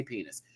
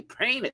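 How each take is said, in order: First: Said in the usual way. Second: "Penis" said high as PAY-niss; playful high-pitched "Penis", starting like pain; comic pronunciation. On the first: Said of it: "You don't never say penis". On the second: Shown as a demonstration. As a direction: squeal "Penis" with an AY vowel up front. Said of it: "You gotta say it with a little".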